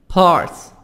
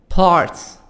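The two takes are said the same way.

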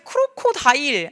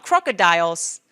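First: It is said as separate Korean-style syllables. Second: It is said with natural English sounds and stress. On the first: The speaker calls it wrong. "크로코다일 하면 안 돼" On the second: The speaker calls it right. "발음 해볼게요"

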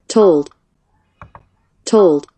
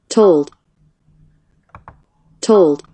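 No difference in how they are said.

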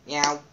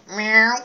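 First: It is a plain, ordinary cat noise. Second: It is a more convincing cat imitation.

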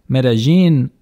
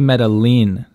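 First: The name is said the way locals say it. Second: The name is said in neither accepted way. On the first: This is how people from the city say it. The speaker calls it right. "Medellin is what locals to the city say" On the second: This pronunciation is never correct. The speaker calls it wrong. "Just don't say Medellin. Medellin is always wrong"

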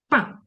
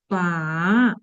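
First: The pitch falls sharply from high. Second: The pitch dips low, then rises. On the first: "І четвертий. Коли ми кажемо, ругаємося" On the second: "третій тон"

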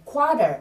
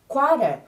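First: The middle consonant sounds like a soft D. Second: The middle consonant sounds like a soft D.

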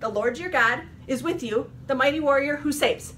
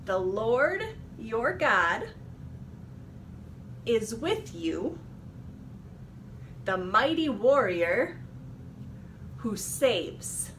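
First: It is said very quickly. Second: It is said at a normal speed.

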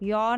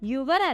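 First: The word is said as one syllable, yor. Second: The word is said as two syllables, yoo-var. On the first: The speaker calls it right. "യോർ എന്നാണ് പറയാം" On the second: The speaker calls it wrong. "യുവർ അല്ല"

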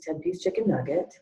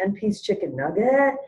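First: The voice falls at the end like a statement. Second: The voice rises at the end like a question. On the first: The order is simply being confirmed. The speaker calls it right. "it could be said something like this" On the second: It sounds as if the order was not heard. The speaker calls it wrong. "to say it like a question every time, like you didn't hear it"

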